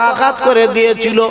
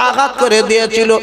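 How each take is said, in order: The two takes are said the same way.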